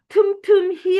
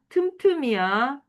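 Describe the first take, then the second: First: The word ends with an 'hi' sound. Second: The word ends with a plain 'i' sound. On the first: The speaker calls it wrong. "틈틈히 아니야" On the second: The speaker calls it right.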